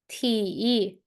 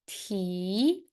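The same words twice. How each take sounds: First: The pitch dips low, then rises. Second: The pitch rises from middle to high. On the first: "And how about the third?" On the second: "How about the second tone?"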